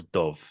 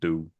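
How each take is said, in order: First: The word ends with a v sound. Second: The word ends with a vowel sound. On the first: This is the usual present-day pronunciation. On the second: This is the older pronunciation.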